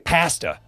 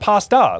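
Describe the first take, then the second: First: It is said with a British accent. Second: It is said with an American accent. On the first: "why the heck do you guys say" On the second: "why not pasta? ... that's how we pronounce it"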